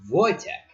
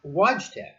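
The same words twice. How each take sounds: First: Wojtek said as "VOY-tek"; correct Polish pronunciation. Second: Wojtek misread as "WAHJ-tek"; anglicized mispronunciation. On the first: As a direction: open Wojtek with a V, j like a y. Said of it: "pronounced V". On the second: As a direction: say Wojtek with an English W and a hard j. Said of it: "which is known as Wojtek". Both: Shown as a demonstration.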